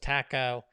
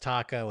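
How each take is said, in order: First: Taco is said in a British accent. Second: Taco is said in an American accent.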